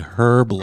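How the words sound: Herb is said with the h sound.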